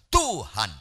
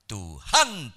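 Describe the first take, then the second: First: The stress is on the first syllable. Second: The stress is on the second syllable. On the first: The speaker calls it right. "Tuhan harus di tu. itu notasi penekanan lebih keras" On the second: The speaker calls it wrong. "Kalau di han lebih keras itu bisa salah"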